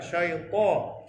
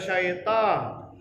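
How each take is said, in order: First: The t sound is heavy and full-mouthed. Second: The t sound is light and thin. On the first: The speaker calls it right. "ta huruf isti'la bagi atas dibaca tebal" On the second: The speaker calls it wrong. "Jangan baca"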